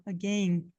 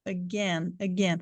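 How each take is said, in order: First: "again" with a small I glide, "a-gain"; British "again". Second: "again" as "a-GEN", a pure open E; plain E sound. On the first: Teacher showing the British sound to students, "again" with an I glide. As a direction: say "again" to rhyme with "rain". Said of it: "eles falam um sonzinho do I". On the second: Teacher showing it is only an E, "again" as "a-gen". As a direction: say "again" to rhyme with "ten", no glide. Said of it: "é só um som de um E". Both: Shown as a demonstration.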